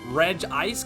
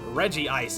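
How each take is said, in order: First: The name starts with a short 'Reg' sound. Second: The name starts with a longer 'Reggie' sound. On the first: "very phonetic" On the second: "If you pronounce the I with the Reggie"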